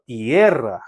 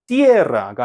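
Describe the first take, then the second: First: 띠에라 with the stress on 에; stress on strong vowel. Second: 띠에라가 with the stress wrongly on 띠; misplaced stress. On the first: Teacher correcting the accent, 에 stressed in 띠에라. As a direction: lean on 에 in 띠에라, low and deliberate. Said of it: "강모음에 강세가 갑니다". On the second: Teacher showing the mistake, 띠에라가 stressed on 띠. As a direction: hit the first vowel 이 in 띠에라가. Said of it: "띠에라가 아니고요". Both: Shown as a demonstration.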